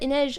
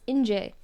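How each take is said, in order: First: The name ends with an 'ej' sound. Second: The name ends with a 'je' sound. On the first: The speaker calls it right. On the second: The speaker calls it wrong.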